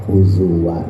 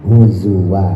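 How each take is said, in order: Both takes have the same delivery.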